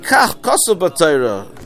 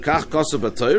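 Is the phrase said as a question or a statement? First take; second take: statement; question. First: The phrase is said as a plain statement. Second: The phrase is said with a questioning tune. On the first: It tells the father what the Torah says. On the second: It asks the father whether that is what the Torah says.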